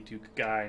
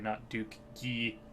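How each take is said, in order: First: The name is given an English pronunciation. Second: The name is given a French-style pronunciation. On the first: The speaker calls it right. "because he's English, it'd probably be" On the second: The speaker calls it wrong.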